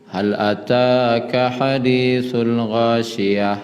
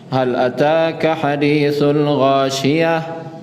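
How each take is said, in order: First: It is recited flat, not as a question. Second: It is recited with a questioning tune. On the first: The speaker calls it wrong. "Tidak boleh data dah" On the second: The speaker calls it right. "Jadi kalau membaca memang bentuk bertanya lah"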